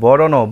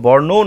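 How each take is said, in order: First: It has three syllables, with a vowel between r and n. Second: It has two syllables, with r joined to n. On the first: The speaker calls it right. "বুজি লওক বৰণৌ" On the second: The speaker calls it wrong. "বৰ্ণৌ নহয়"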